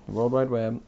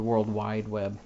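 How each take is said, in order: First: Said in the usual way. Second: World Wide Web with the stress moved onto Wide; wrong-word stress. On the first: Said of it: "most people would say". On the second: Shown as a demonstration. Podcaster showing his own way to say it, stress on Wide. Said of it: "stress the wrong syllable".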